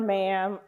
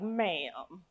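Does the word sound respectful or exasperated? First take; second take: respectful; exasperated. First: It is said in a plain, respectful tone. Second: It is said in an exasperated, disrespectful tone. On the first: The speaker is showing polite respect. "most times when you use a title, you're being respectful" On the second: What the witness just said was foolish. "you vary your tone a little bit, it's not so respectful"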